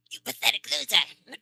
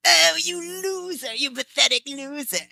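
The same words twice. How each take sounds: First: Playful, higher villain sneer through a laugh; Frieza voice. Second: High, loud, slow Frieza-style taunt; gloating villain voice. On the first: Behind her husband's back, a mock Frieza sneer. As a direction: tease like the villain, half-laughing. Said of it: "I'll go Frieza on you". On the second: To her co-star who lost the race, a gloating villain taunt. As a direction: sneer down at the loser who lost. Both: Retold or imitated.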